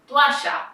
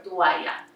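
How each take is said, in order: First: "toalla" with LL said as "sh"; Argentinian pronunciation. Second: "toalla" with LL said as "y"; standard pronunciation. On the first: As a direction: say to-A-sha for "toalla", Argentinian style. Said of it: "the word toalla or toalla". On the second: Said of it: "or toalla". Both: Shown as a demonstration.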